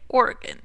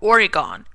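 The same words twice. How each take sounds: First: It is said the way Oregonians say it. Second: It is said the way Easterners say it. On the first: The speaker calls it right. "You say Oregon" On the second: The speaker calls it wrong. "You don't say Oregon"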